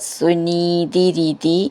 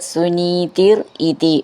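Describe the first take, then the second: First: The two words are run together. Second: The two words are said separately.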